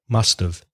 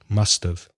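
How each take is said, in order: No difference in how they are said.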